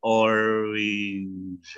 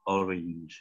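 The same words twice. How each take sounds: First: "orange" stretched out slowly, syllable by syllable; slowed down. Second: Said in the usual way. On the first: Shown as a demonstration. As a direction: drag out "orange" slowly for learners. (ucapkan "orange" pelan-pelan) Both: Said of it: "kalau dipelanin sama coach [name]".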